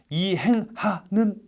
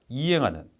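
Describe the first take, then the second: First: The h sound is pronounced strongly and separately. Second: The h sound is softened and flows smoothly. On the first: The speaker calls it wrong. "이런 느낌일 필요는 없다는 거예요" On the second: The speaker calls it right. "그냥 이행하는"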